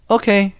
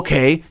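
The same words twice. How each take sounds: First: It is said in an indifferent, dismissive tone. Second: It is said in a sharp, hostile tone. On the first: The speaker does not care. "to me that's like whatever" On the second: The speaker wants the other person gone. "To me that's fuck off"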